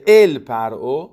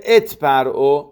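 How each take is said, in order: First: ال lifted with a rise, not ات; stress on ال. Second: ات lifted with a rise, not ال; stress on ات. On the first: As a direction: lean on the word ال in ال پرعو. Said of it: "بلکه گفته ات پرعو". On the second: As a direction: lean on the word ات in ات پرعو. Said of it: "نگفته ال پرعو". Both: Shown as a demonstration.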